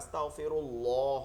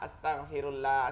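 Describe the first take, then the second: First: The L of Allah sounds heavy and full. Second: The L of Allah sounds light and thin. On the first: The speaker calls it right. "আল্লাহ শব্দটা সুন্দর করে উচ্চারণ করতে হবে" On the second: The speaker calls it wrong. "এরকম হবে না"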